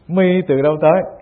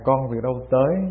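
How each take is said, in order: First: It is said in a rough, blunt tone. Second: It is said in a soft, gentle tone.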